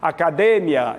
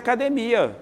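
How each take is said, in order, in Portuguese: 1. A sílaba tônica é a terceira. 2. A sílaba tônica é a quarta. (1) "então a tônica é de" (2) "a tônica é mia"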